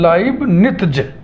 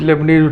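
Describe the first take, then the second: First: The first syllable sounds like 'lie'. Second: The first syllable sounds like 'lay'. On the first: The speaker calls it right. "इसका सही उच्चारण है लाइबनिज़" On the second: The speaker calls it wrong. "जिसको हम लोग लेबनीज लेबनीज उच्चारण करते हैं"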